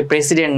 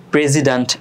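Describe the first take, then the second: First: Quick "প্রেসিডেন্ট" with an s in the middle; wrong pronunciation. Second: "প্রেসিডেন্ট" with a voiced z in the middle; s pronounced as z. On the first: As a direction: say "প্রেসিডেন্ট" as "pre-si-dent", s not z. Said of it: "প্রেসিডেন্ট না". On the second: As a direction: say "প্রেসিডেন্ট" as "pre-zi-dent". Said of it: "এস এর উচ্চারণটা জয়ের মতো হবে". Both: Shown as a demonstration.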